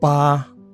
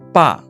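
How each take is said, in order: First: The pitch stays high and level. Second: The pitch falls sharply from high to low. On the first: It means the number eight. "Bunyi pertama" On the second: It means father. "Bunyi keempat"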